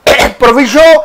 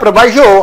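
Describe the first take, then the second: First: The middle vowel sounds like 'ee'. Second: The middle vowel sounds like 'eye'. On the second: "कई लोग इसे प्रोवाइजो pronounce करते हैं"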